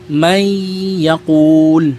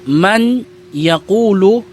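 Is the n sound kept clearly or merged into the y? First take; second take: merged; kept. First: The n merges into a lengthened nasal y. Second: The n is pronounced clearly before the y. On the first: The speaker calls it right. "ngayon ang pagbigkas mo ay may yakul" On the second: The speaker calls it wrong. "imbis na man yakulu"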